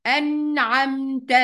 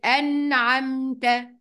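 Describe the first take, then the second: First: أنعمت repeated slowly with a clear noon; slow careful أنعمت; clear izhar. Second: أنعمت drawn slow, noon fully sounded before ع; slow tajweed أنعمت; clear izhar. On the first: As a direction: say أنعمت once more, noon distinct. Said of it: "تاني". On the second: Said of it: "يبقى هننطقها إزاي؟". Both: Shown as a demonstration.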